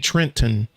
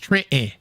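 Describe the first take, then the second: First: The final syllable is fully pronounced with a clear t. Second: The final syllable is reduced, the t swallowed. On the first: This is how it is spelled, not how locals say it. The speaker calls it wrong. "they don't say Trenton" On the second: This is how locals actually say it. The speaker calls it right. "It's Trenton"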